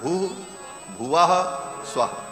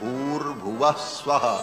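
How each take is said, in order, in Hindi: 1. हर शब्द अलग-अलग, बीच में रुककर बोला जाता है। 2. शब्द जुड़कर एक ही रूप में बोले जाते हैं। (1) "मूलतः वो तीन व्याहृतियां अलग अलग हैं" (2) "तीनों को जब एक साथ उच्चारण किया जाता है"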